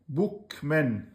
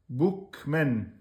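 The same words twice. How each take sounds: The two takes are said the same way.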